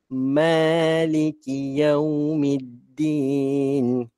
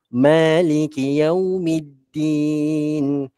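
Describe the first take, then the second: First: The phrase is recited at a slower pace. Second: The phrase is recited at a faster pace.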